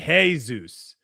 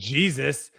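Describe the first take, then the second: First: The word begins with an H sound. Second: The word begins with a J sound. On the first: "they say Jesus" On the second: "instead of saying Jesus"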